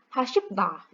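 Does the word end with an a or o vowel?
a. The word ends with an a vowel. This is the standard Korean form. "dalam bahasa Korea biasa"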